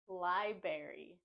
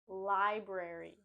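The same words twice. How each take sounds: First: The first R sound is left out. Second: The first R sound is clearly pronounced. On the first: The speaker calls it wrong. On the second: The speaker calls it right.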